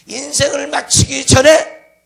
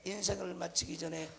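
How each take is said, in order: First: Loud, slow, stretched 인생을 마치기 전에; emphatic preaching shout. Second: Much softer 인생을 마치기 전에; subdued repeat. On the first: Preacher warning congregation before life ends, emphatic shout. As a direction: punch out 인생을 마치기 전에 forcefully, lifting the end. Preacher stresses phrase, then repeats it. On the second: Preacher repeating warning to congregation, subdued voice. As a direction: drop 인생을 마치기 전에 to a quiet aside. Same phrase repeated softly after shout. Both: Real, not acted.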